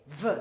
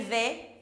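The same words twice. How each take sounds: First: "V" as its sound, a buzzed ve with a neutral vowel; letter sound. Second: "V" pronounced as its French letter name, vé. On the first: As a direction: say "V" as the phonic sound vvv-uh. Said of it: "je fais V". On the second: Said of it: "Je m'appelle V". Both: Shown as a demonstration.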